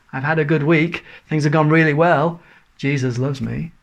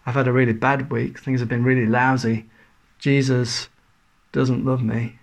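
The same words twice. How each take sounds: First: Mock cheerful. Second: Mock gloomy. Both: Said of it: "that's a dreadful tune".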